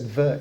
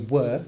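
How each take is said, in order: First: The word begins with a V sound. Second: The word begins with a W sound. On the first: "they said ver instead" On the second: "couldn't say were"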